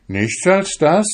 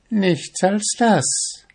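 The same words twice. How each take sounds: First: Higher, rising surprised question; astonished exclamation. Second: High, slow, drawn-out reply, falling at the end; smiling answer. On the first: Young fisherman amazed at the witch's small price, astonished. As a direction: cry it out in wonder. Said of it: "rief der junge Fischer verwundert aus". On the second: Witch confirming her price to the fisherman, smiling. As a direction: draw it out with a smile. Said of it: "antwortete sie und lächelte ihn dabei an". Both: A narrator's reading.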